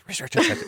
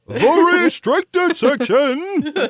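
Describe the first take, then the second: First: It is said quickly and quietly, under the breath. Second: It is said loudly, proclaimed with grandeur.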